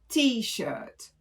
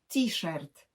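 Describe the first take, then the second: First: It is said English style, with no r sounded. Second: It is said Polish style, with the r sounded. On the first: "oryginalna angielska wymowa to t-shirt" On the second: "wymawiane t-shirt"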